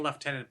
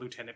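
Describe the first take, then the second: First: The word has the British pronunciation. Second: The word has the American pronunciation. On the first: This is the form the speaker should use. "As a Canadian, I should be saying lieutenant" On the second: This is the form picked up from American television. "I grew up saying lieutenant because I watched G I. Joe"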